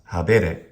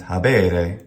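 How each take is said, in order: First: The middle vowel is short. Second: The middle vowel is long. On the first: The speaker calls it wrong. "not habere" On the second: The speaker calls it right. "And habere"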